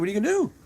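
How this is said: It sounds resigned and helpless.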